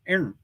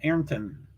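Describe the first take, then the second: First: One syllable of the name is swallowed. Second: Both syllables of the name are clearly pronounced. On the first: "you kind of swallow one of those syllables" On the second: "I think it's Ayrton"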